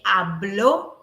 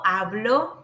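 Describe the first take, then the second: First: The stress is on the last syllable. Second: The stress is on the first syllable. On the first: He, she or it spoke. "mark the stress on this letter O" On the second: I speak. "with this weak pronunciation"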